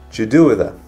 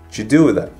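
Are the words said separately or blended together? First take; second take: blended; blended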